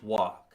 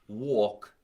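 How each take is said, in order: First: The vowel has a neutral sound. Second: The vowel has a New York sound. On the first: The speaker calls it right. "it's walk" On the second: The speaker calls it wrong. "it is not walk"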